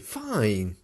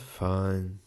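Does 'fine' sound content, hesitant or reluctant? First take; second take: content; reluctant. First: It is said plainly and contentedly. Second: It is said flatly and reluctantly. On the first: The speaker is well. "I can say" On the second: The speaker is not really well. "maybe I'm not so good if I use the last one"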